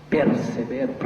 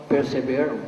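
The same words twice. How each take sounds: The two takes are said the same way.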